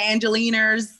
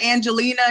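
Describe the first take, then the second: First: The name ends with an added R sound. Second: The name ends without an R sound. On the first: "you say Angeliners" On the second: "instead of Angelina"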